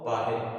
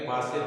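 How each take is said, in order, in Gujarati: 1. વચ્ચેનો વ્યંજન h જેવો ઉચ્ચાર છે. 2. વચ્ચેનો વ્યંજન s જેવો ઉચ્ચાર છે.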